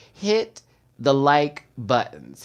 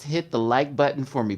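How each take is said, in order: First: Slow, broken-up HIT THE LIKE BUTTONS; drawn-out request. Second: Said in the usual way. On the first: Real, not acted. Host asks viewers for a favor, drawn-out request. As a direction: stretch out HIT THE LIKE BUTTONS with pauses between words.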